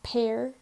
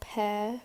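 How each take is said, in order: First: It is said in an American accent. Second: It is said in a British-sounding accent.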